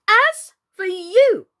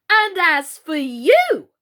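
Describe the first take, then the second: First: High, loud, slow fierce threat; fierce repeat. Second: Loud, slow, fierce threat. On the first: Alice seizing the shrinking Queen, repeating fiercely. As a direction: hammer it home fiercely. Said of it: "she repeated". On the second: Alice turning on the Red Queen, fierce and loud. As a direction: round on her fiercely. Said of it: "turning fiercely upon the Red Queen". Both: A narrator's reading.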